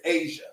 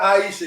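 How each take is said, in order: First: The name has two syllables, like ay-zha. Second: The name has three syllables, like eye-ee-sha. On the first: The speaker calls it right. "it's Asia, pronounced like Asia" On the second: The speaker calls it wrong. "she says not Aisha"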